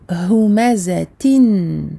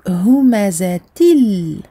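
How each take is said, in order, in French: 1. Le mot se termine par un son N. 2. Le mot se termine par un son L. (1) "et non pas humazatin" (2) "Donc humazatil"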